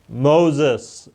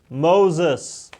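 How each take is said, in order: First: Calling slow and a bit louder, a voice from the bush; booming divine call; God voice. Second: Lightly voiced divine call; God voice. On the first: Acted. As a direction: call his name like God from the fire. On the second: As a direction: call again like God, gently insistent. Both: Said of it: "that's my God voice".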